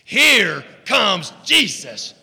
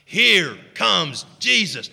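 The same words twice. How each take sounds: First: It is said with passion and energy. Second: It is said in a plain, calm way.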